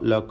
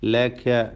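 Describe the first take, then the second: First: The vowels are heavy, rounded 'o' sounds. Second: The vowels are light, open 'a' sounds. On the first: The speaker calls it wrong. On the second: The speaker calls it right.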